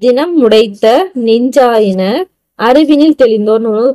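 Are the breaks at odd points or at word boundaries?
word boundaries. The line is broken at the word boundaries. The meaning becomes clear. The speaker calls it right. "கொஞ்சம் புரியுதா?"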